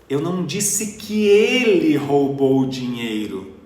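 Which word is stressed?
ele. The word 'ele' carries the main stress. Someone else stole the money. "Então quem foi que roubou o dinheiro?"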